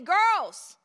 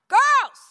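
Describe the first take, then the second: First: It is called out at a normal volume. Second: It is called out louder still. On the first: A polite first request. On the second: This is a final warning.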